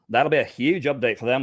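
It is spoken in a put-on Australian accent. "I'm going to read these next responses in a faux Australian accent"

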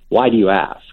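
It sounds wary, as if dreading the talk.

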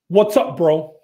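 It is said aggressively, like an angry answer.

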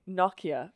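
It is said in a non-American accent. "I say Nokia"

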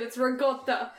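It is said in an Italian-American accent.

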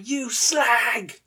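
It is said in a harsh, angry tone. It is a real insult. "they're really angry"

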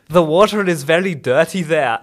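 It is read in a put-on Scottish accent.

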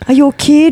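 It is asked pressingly, with heavy, probing concern. The speaker is pushing for an answer and offering help. The speaker calls it wrong. "But it's not like, macam"

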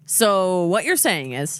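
It sounds condescending, full of disbelief. The speaker thinks the other person's point is stupid. "You're always like this"

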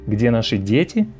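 The voice rises sharply within the question. The question is repeated back before answering.

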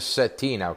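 The name is said with American pronunciation. "here in America, they pronounce it Cettina"

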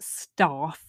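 It is said in received pronunciation. "the man says staff, which is, I guess, received pronunciation"

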